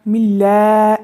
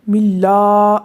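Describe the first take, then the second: First: It is said with lips spread, sounding thin. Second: It is said with mouth opened upward, sounding full. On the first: The speaker calls it wrong. "मिल्ला मिल्ला इस तरह नहीं" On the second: The speaker calls it right. "मिल्ला इस तरह से"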